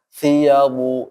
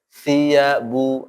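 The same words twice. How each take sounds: First: It sounds heavy, as if the mouth is full. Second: It sounds relaxed and light, not full-mouthed. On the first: The speaker calls it wrong. "jangan siyabu jadi kayak uh, mulut penuh, salah juga" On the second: The speaker calls it right. "Santai aja"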